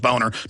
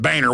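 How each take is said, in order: First: The first vowel sounds like 'bone'. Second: The first vowel sounds like 'bay'. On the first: This is how the name is said in German. "I've talked to Germans and looked it up. It, it is Boner" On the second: This is how the man says his own name. "he pronounces it Boehner"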